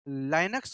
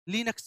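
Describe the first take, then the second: First: The first vowel sounds like 'eye'. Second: The first vowel sounds like 'ih'. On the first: "या तो हम लोग लाइनक्स बोल देते हैं" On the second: "लिनक्स बोल सकते हैं"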